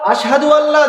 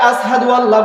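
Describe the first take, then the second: First: The first word is said with a sh sound. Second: The first word is said with an s sound. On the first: The speaker calls it right. "জায়গায়" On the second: The speaker calls it wrong. "সিন রে সাদ বলে, তার জবানে উচ্চারণ হয় না"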